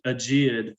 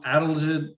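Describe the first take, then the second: First: The word is said as aegeid. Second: The word is said as adelgid. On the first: The speaker calls it wrong. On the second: The speaker calls it right.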